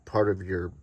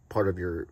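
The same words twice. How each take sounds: The two takes are said the same way.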